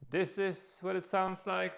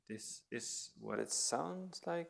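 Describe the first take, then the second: First: It is spoken at a loud volume. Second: It is spoken in a whisper. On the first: "when I'm loud" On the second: "when I whisper"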